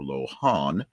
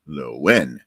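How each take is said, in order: First: The H sound in the middle is pronounced. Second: The H sound in the middle is silent. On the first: The speaker calls it wrong. "not Lohan or Lohan" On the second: The speaker calls it right. "The H is essentially silent. It's Lowen"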